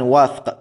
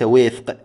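First: The first vowel is an open a sound. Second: The first vowel is a close i sound. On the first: The speaker calls it right. "طبعا وفق وليس وفق" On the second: The speaker calls it wrong. "هذا خطأ شائع"

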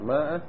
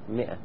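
First: The first vowel is 'a', as in maa'a. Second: The first vowel is 'i', as in mi'a. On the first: The speaker calls it wrong. "وبعضهم يقول ماء وغلط تلفظ بها ماء غلط" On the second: The speaker calls it right. "تكتب ماء لكن تلفظ 100"

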